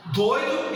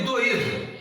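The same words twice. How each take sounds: First: Doido with a strong first DOI; stress on DOI. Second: Doído split as do-Í-do; stress on I. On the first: Teacher contrasts two words, Doido stressed on DOI. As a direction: hit DOI as one syllable in Doido. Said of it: "A sílaba tônica tá no doido". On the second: Teacher contrasts two words, doído stressed on I. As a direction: put the weight on I in doído. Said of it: "se você passar pro i". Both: Shown as a demonstration.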